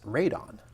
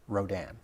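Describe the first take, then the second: First: The first syllable is said with an 'a' vowel. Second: The first syllable is said with an 'o' vowel. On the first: This is the original Japanese name. "the original Japanese way to pronounce it is Radon" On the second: This is the name used in American dubs. "the American dubs are Rodan"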